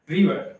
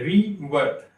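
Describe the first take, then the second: First: Said in the usual way. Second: river broken into ri and var; a gap inside river, ri then var; syllable by syllable. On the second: Shown as a demonstration. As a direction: slowly separate the two syllables of river. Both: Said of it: "दो बार हमें सांस लेना पड़ रहा है".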